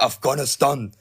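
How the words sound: The word is given an exaggerated foreign-style pronunciation. The speaker calls it wrong. "that cringe thing that Americans do when they're pronouncing something in another freaking language"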